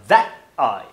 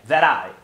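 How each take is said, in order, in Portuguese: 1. O t é falado como uma parada glotal. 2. O t é falado como um tap rápido. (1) "aqui ele faz uma parada glotal" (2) "ou fazer o tap"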